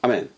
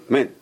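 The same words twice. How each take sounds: First: AMEN with a very short opening "ah"; snatched first vowel. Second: "amen" with the first vowel dropped, just "men"; missing aleph. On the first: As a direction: shorten the aleph in Amen, keeping it audible. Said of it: "A very short ah". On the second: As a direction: swallow the opening a of "amen" entirely. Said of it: "He's missing the aleph". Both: Shown as a demonstration.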